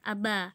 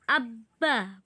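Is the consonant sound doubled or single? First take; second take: single; doubled. First: The b sound is said single, not doubled. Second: The b sound is doubled and pressed. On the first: The speaker calls it wrong. "bukan abba" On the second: The speaker calls it right. "harus digandakan atau ditekan"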